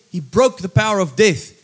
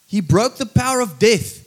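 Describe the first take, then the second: No difference in how they are said.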